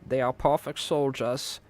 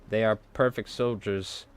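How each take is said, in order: First: It is said in a put-on German accent. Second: It is said in the speaker's normal accent.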